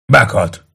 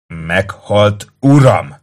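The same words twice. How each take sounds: First: Said in the usual way. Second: Snapping correction. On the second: A narrator's reading. Kato correcting the optio, snapping. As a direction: snap the correction, hitting uram. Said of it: "csattant fel Kato".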